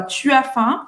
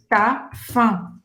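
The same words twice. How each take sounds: First: "Tu as faim" with the u fully sounded; school French. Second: "tá fã" in two syllables, no u; u cut out. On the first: Teacher showing school French, "Tu as faim" fully articulated. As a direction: keep "Tu" and "as" as two syllables, rising question. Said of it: "isso aqui é o francês da escola". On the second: Teacher showing real-life French, "tá fã" with u dropped. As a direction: clip "Tu as" down to a single "tá" before "fã". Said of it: "Eles vão cortar esse u de tu". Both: Shown as a demonstration.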